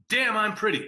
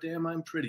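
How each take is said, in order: First: It is said with lively, playful energy. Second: It is said flatly, without much energy. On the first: The speaker calls it right. "And you got to say it like that" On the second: The speaker calls it wrong. "You can't go"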